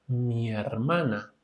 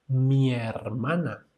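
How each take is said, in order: No difference in how they are said.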